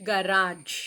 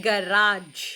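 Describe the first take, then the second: Both takes have the same delivery.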